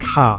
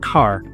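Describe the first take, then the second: First: The word ends without an r sound. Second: The word ends with an r sound. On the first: This is how Australian English speakers say it. "I don't pronounce the er sound on the end" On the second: This is how North American English speakers say it. "in North America, they pronounce it as car"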